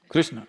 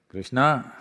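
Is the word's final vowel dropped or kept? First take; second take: dropped; kept. First: The final vowel is dropped. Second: The final vowel is kept. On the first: "cutting off the last syllable" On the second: "The language has the habit of cutting off the last syllable"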